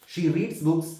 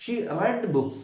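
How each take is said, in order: First: "reads" said as reeds, long ee with an s; present tense reads. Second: "read" said as red, short e like bed; past tense read. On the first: Teacher models the present tense, "reads" said as reeds. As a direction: say "reads" like reeds, rhyming with needs. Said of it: "പക്ഷേ pronunciation മാറ്റം വരുന്നു". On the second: Teacher shows the same spelling with new sound, "read" as red. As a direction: say "read" to rhyme with red, not reed. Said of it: "spelling ഒന്ന് തന്നെയാണ്". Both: Shown as a demonstration.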